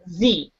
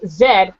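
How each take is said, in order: First: The letter is said as 'zee'. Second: The letter is said as 'zed'. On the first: This is how Americans say it. "but they pronounce Z" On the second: This is how the speaker's own group says it. "we we pronounce Z"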